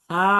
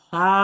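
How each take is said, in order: Both takes have the same delivery.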